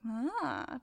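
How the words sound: It sounds mildly charmed and restrained.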